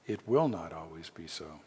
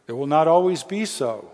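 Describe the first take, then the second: First: Lower, softer reassurance; hushed repeat. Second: Emphatic promise. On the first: Preacher reassures suffering congregation, low and soft. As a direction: let it settle quietly after the bold claim. Same promise repeated after long pause. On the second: Preacher promises congregation suffering will end, loud and emphatic. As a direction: ring it out, loud and higher. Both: Real, not acted.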